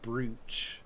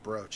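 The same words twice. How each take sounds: First: The vowel sounds like 'oo'. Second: The vowel sounds like 'oh'. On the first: Another person says it this way. The speaker calls it wrong. "as my brother likes to say" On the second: The speaker prefers this way. The speaker calls it right. "I've always preferred brooch, even though it's spelled, you know, with two O's"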